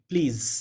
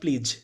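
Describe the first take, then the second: First: The word ends in a buzzing z sound. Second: The word ends in a j sound. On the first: The speaker calls it right. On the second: The speaker calls it wrong.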